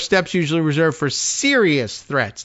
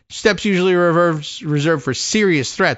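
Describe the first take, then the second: First: The stress falls on the word serious. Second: The stress falls on the word reserved. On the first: This case was not a serious threat at all. "like this is not even serious" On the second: Such steps are normally kept for real threats to the president. "there's two ways of reading that with the emphasis on that"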